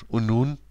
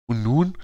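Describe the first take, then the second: First: Said in the usual way. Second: Half-raised voice, mildly indignant; mild narrated yell. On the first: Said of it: "sagte Ben". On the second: A narrator's reading. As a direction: throw the question back in a restrained mock shout. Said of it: "schrie Jennifer".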